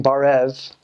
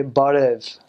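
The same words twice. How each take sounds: First: Barev with an English r, as in "bar"; wrong American barev. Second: Barev with a tapped r, like "bah-div"; foreign-sounding barev. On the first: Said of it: "instead of saying barev". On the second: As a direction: tap the r in barev to sound Armenian. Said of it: "try to sound foreign". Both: Shown as a demonstration.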